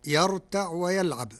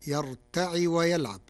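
First: "يرتع" ending on a still ayn; standard reading. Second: "يرتع" with an i after the ayn; Warsh reading. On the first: Sheikh quotes the verse before explaining, "يرتع" with no final vowel. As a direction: close "يرتع" on the consonant, no vowel. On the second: Sheikh demonstrates the resulting Warsh form, "يرتع" said as yarta'i. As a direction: add a kasra to the end of "يرتع". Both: Shown as a demonstration. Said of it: "بكسر العين".

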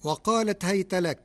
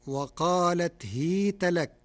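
First: Higher recitation, "هيت" as hayta; standard reading. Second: "هيت" as hiita with long i; Warsh reading. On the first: Sheikh quotes the verse before explaining, "هيت" recited as hayta. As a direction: say "هيت" with an a-y glide after the ha. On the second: Sheikh demonstrates the Warsh form, "هيت" recited as hiita. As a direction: give "هيت" a kasra on the ha, drawn into ii. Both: Shown as a demonstration. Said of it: "بكسر الهاء".

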